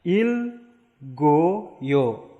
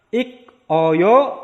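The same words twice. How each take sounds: First: Il goyo said joined, the k turned to g; linked pronunciation. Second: Ik oyo said split apart, high and loud; separate syllables. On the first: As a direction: link it as il goyo. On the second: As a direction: break it as ik, oyo. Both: Shown as a demonstration. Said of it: "maka jadinya".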